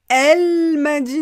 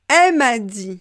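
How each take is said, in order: First: The l of elle is clearly pronounced. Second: The l of elle is dropped. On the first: The speaker calls it wrong. "Donc pas elle m'a dit, non" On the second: The speaker calls it right. "je vais vous lire la prononciation informelle de l'oral"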